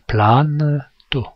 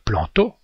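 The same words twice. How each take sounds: First: The vowel is followed by a clearly heard n. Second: The vowel is nasal, with no clear n. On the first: The speaker calls it right. "il faut prononcer planto" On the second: The speaker calls it wrong. "nous on dirait planto"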